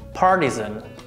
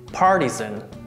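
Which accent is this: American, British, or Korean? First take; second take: American; American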